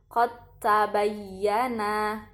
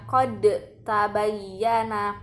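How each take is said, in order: First: The d merges directly into the t. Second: The d is released with an echoing bounce. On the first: The speaker calls it right. "dibaca langsung masuk ke huruf ta-nya, tidak perlu mengkolkolahkan huruf dal" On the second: The speaker calls it wrong. "nah itu salah"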